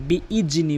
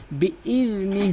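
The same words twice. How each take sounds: First: বিইজনি as "bi-ij-ni" with hard j; wrong J sound. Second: Tongue tip to front teeth in বিইজনি; correct dhal. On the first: Teacher showing the common error, বিইজনি with J. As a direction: put a plain j in বিইজনি. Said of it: "অধিকাংশ লোক বিইজনি বলে". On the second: Teacher showing the articulation point, বিইজনি with dh. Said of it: "জিহ্বার আগা থেকে". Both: Shown as a demonstration.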